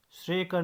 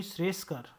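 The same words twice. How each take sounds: First: श्रेयकर without the s; wrong pronunciation. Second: श्रेयस्कर with 's' before कर; correct pronunciation. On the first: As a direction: leave स out of श्रेयकर. (श्रेयकर, स के बिना) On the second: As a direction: sound the स in श्रेयस्कर, falling. (श्रेयस्कर में स का साफ़ उच्चारण) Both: Shown as a demonstration. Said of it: "श्रेयकर नहीं".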